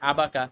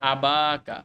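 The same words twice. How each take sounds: First: The vowel after the b is short. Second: The vowel after the b is long. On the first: The speaker calls it wrong. "আমাদের সেন্স কি বলতো" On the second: The speaker calls it right. "এটা হবে আবাকা, ... একটা আলিফ চলে আসছে"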